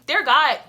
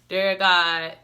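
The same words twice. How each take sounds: First: It is said in a lively, enthusiastic tone. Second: It is said in a flat, bored tone. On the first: The speaker calls it right. "enthusiasm means" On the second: The speaker calls it wrong. "Not just no boring"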